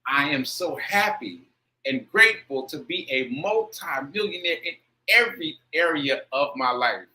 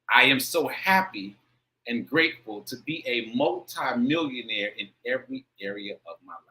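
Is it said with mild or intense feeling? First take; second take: intense; mild. First: It is said with stronger, more intense feeling. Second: It is said with ordinary, milder feeling.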